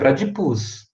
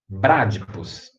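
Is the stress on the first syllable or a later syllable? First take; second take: later syllable; first syllable. First: The stress falls on a later syllable. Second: The stress falls on the first syllable. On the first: The speaker calls it wrong. "não é bradipus" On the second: The speaker calls it right. "Aumenta o tom na primeira sílaba"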